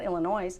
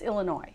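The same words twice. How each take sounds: First: The final s sound is pronounced. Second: The final s sound is silent. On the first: The speaker calls it wrong. "It's not Illinois" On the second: The speaker calls it right. "S is silent"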